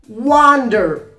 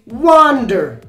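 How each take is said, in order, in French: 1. Il est prononcé avec un accent américain. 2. Il est prononcé avec un accent américain.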